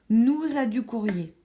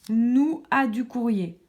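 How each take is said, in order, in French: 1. 'Nous' et 'a' sont liés avec une liaison en z. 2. 'Nous' et 'a' se prononcent sans liaison en z.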